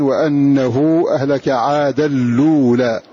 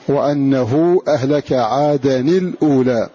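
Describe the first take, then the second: First: The n merges into a voweled l; no glottal stop. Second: A short i follows the n; the l is silent. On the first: "ينقلون حركة الهمزة ... إلى اللام، ثم يحركون اللام فيدغمون فيها التنوين" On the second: "بكسر التنوين وإسكان اللام"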